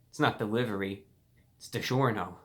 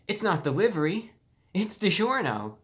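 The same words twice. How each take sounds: First: It is said in a snide, condescending tone. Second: It is said in a very happy, delighted tone. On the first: It is meant as an insult. "in a condescending way" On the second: This is the best day of your life. "in a very happy tone, like this is the best day of your life"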